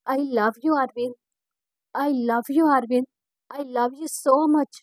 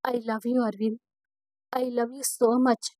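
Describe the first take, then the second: First: Joyful shouting. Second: Loving murmur face to face; tender. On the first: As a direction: shout it to him while running. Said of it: "అని అరుస్తూ". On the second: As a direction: say it gently up close, looking at him. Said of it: "ప్రేమగా చూస్తూ". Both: Acted.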